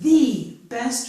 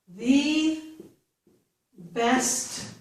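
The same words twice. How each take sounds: First: 'The' is said as a long, stressed 'thee'. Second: 'The' is said as a short 'thuh'. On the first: "I'm really going to stress the word" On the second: "I could tell you that that is maybe the best"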